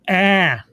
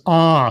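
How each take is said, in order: First: "ah" as the flat vowel in cat; short A sound. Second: "ah" as the open vowel in father; open AH sound. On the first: Reviewer naming the usual vowel in bag, short "ah" as in cat. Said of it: "doesn't say it with the ah sound". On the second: Reviewer copying an actress's odd vowel, open "ah" as in father. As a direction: say "ah" open and back, as in bog. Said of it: "She says ah". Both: Shown as a demonstration.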